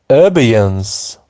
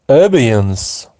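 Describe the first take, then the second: The two takes are said the same way.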